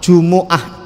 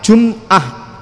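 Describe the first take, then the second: First: The m is followed by a u vowel. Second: The m is followed directly by the next consonant. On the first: The speaker calls it right. "tapi dinamakan di dhammah" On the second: The speaker calls it wrong. "jangan pakai jum'ah, mimnya jangan disukun"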